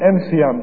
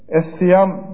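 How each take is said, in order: First: The article is said with an m sound. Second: The article is said with an s sound. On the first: This is how some tribes said it. "em siyam derlermiş" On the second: This is the standard classical form. "Es siyam deriz biz mesela, öyle biliyoruz klasik Arapça dediğimizde"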